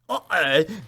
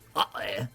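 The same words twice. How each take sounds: First: It is said with strong intensity. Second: It is said flatly, without intensity.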